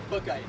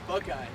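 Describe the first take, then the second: First: The name ends with an 'eye' sound. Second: The same.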